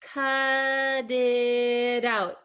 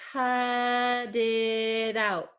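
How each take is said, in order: No difference in how they are said.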